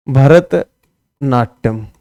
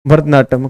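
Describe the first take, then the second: First: Bharatanatyam drawn out very slowly, in two parts; भरत, a pause, then Natyam, both stretched out; slow dictation. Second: Said in the usual way. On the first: Shown as a demonstration. Teacher repeats term slowly for students.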